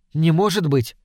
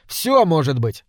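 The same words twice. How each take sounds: First: "Не может быть" with the weight on может; lightly voiced girl's disbelief, may hitting может; doubting disbelief. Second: "Всё может быть" with the weight on всё; captain's easy answer, всё leaned on; knowing reply. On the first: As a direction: stress on может, falling. Lena doubts the ointment. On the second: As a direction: stress on всё, falling. Captain answers her doubt. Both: A narrator's reading.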